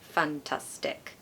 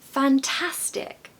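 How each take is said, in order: First: The word is said in a flat monotone. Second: The word is said with a lively, varied melody. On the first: It sounds without feeling. The speaker calls it wrong. "That would be more monotone" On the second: It sounds sincere and emotional. The speaker calls it right. "it has feeling"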